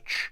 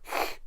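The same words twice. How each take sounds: First: The sound is a plain English ch as in church. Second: The sound is a throaty rasp as in loch. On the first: The speaker calls it wrong. "It's not pronounced as a ch sound" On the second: The speaker calls it right. "as in, I guess, loch"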